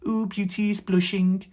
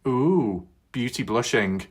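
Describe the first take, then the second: First: It is said in a posh accent. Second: It is said without a posh accent.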